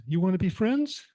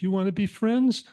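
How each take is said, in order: First: Gentle invitation to friendship; the kitten asks the calmed cat to be friends. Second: Bright, higher, louder kitten asking; hopeful kitten asking to be friends; a higher, louder kitten calls out to the serious cat, asking to be friends. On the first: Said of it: "The little kitten says". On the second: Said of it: "The little kitten said". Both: Acted.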